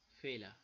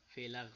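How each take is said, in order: First: The final r is soft and barely heard. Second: The final r is pronounced clearly and strongly. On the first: The speaker calls it right. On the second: The speaker calls it wrong.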